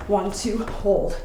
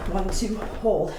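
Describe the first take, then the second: First: Quick count, then a firm hold; counting one, two, then hold. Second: Slower count with a long held hold; slowed-down demo count. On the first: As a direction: call the count crisply, land on hold. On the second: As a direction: draw the count out for a controlled landing. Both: Shown as a demonstration. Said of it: "stick that landing on the third count".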